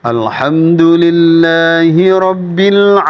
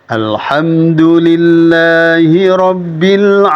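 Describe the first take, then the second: No difference in how they are said.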